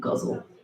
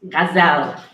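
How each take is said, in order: First: The word sounds like 'guzzle'. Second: The word sounds like 'gazelle'. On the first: The speaker calls it wrong. "It's not guzzle" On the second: The speaker calls it right. "That's how you say it, you guys"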